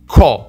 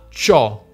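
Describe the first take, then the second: First: It begins with a hard k sound. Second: It begins with a soft ch sound. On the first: The speaker calls it wrong. "Ovviamente però non leggiamo co" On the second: The speaker calls it right. "ma ciò"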